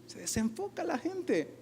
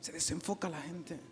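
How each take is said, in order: First: Slow, drawn-out, higher and softer; slow lament. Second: Much softer, lower echo of the line; near whisper. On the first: Preacher lamenting to the congregation, slow and soft. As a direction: let it sink in slowly. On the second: Preacher echoing his point to the congregation, hushed. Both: Shown as a demonstration.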